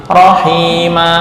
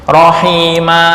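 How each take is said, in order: No difference in how they are said.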